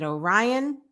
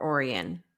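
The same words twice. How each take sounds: First: "Orion" said oh-RYE-un; stressed second syllable. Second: "Orion" said OR-ee-un; stressed first syllable. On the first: Host questioning herself on a town's name, "Orion" as oh-RYE-un. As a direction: stress the middle of "Orion", rhyming it with "Ryan". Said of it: "is it Orion or Orion?". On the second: Host offering her usual town name, "Orion" as OR-ee-un. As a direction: stress the start of "Orion", with an "ee" in the middle. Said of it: "I always say Orion". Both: Shown as a demonstration.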